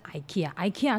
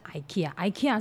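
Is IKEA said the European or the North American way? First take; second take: North American; North American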